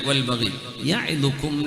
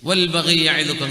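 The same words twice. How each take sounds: First: A pause comes right after 'wal baghi'. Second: The words run on with no pause. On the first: The speaker calls it right. "വൽ ബഗി അടക്കട്ടെ, എന്നിട്ട് യഅ്ലുക്കും" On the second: The speaker calls it wrong. "അങ്ങനെയല്ല"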